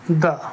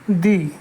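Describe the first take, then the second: First: The word ends in a short 'uh' vowel. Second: The word ends in a long 'ee' vowel. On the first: The next word begins with a consonant sound. "जब शब्द व्यंजन ध्वनि से शुरू होता है तब उसके पहले इसका उच्चारण दा होगा" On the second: The next word begins with a vowel sound. "जब शब्द स्वर ध्वनि से शुरू होता है तब इसका उच्चारण दी होगा"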